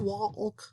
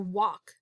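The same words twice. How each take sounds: First: The L sound is pronounced in the word. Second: The L sound is silent in the word. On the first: The speaker calls it wrong. "It's not walk" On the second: The speaker calls it right. "We hear walk"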